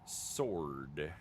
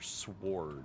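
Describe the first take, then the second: First: The word is said with a silent w. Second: The word is said with a pronounced w.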